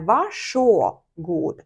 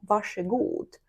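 First: The middle vowel is an o sound. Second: The middle vowel is an e sound. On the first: The speaker calls it wrong. "ми кажемо не «вашо-гуд»" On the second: The speaker calls it right. "а ми кажемо «ваше-гуд»"

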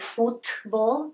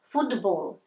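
First: The consonant before b is a voiceless t. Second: The consonant before b sounds close to d. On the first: The speaker calls it wrong. "we don't pronounce it" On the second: The speaker calls it right. "So it's closer to d"

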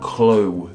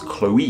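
First: The name ends with an 'oh' sound, like toe. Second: The name ends with an 'ee' sound after 'oh'. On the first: The speaker calls it wrong. "words ending with O-E make like an O sound, kind of like with toe and woe and the name Joe" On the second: The speaker calls it right. "It goes Chloe"

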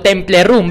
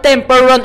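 First: It is pronounced with Spanish-style sounds. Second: It is pronounced the English way. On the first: This is how people here used to say it. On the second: This is the proper name of the game.

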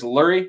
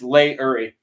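First: The name is said as two syllables. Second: The name is said as three syllables. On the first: The speaker calls it wrong. "I pronounce this Lurie" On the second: The speaker calls it right. "It's Lay-Uri"

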